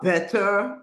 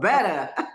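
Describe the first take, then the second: First: It is said with a British accent. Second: It is said with an American accent. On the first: The speaker calls it right. "em vez de falar better" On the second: The speaker calls it wrong. "você falava better"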